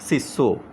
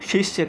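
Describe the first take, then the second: First: The word ends with an 'o' sound. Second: The word ends with a 'ya' sound. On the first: This is the simplified everyday form. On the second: This is the original learned form.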